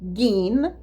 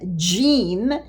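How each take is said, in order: First: The word begins with a hard g sound. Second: The word begins with a soft j sound. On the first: The speaker calls it wrong. "the wrong way as gim" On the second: The speaker calls it right. "if you pronounce the jim"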